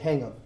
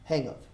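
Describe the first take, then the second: First: The two words run together as one. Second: The two words run together as one.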